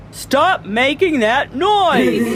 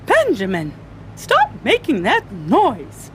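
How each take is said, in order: First: Slow, higher, emphatic telling-off; indignant principal, drawn out to "noise"; scolding principal. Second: Mildly cross teacher voice; scolding teacher. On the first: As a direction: order silence, stretching each word. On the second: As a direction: tell off a noisy pupil, punching the words. Teacher scolds Ben in class. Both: A narrator's reading.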